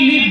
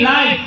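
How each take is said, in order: First: The vowel sounds like short 'ih'. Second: The vowel sounds like 'eye'. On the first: It means to reside. "লিভ বাস করা" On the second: It means shown as it happens. "লাইভ মানে সরাসরি দেখানো"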